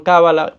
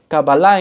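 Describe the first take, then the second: First: It is said the Spanish way. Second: It is said the Hebrew way. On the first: This is the name used in Spanish. "En castellano le llaman Cábala" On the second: This is the original Hebrew name. "pero es Kabbalah en hebreo"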